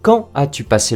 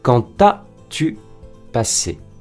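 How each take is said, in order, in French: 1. « Quand » se prononce sans liaison en t. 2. « Quand » se prononce avec une liaison en t. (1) "on ne fait pas la liaison uniquement dans le cas d'une question avec inversion" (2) "Et non"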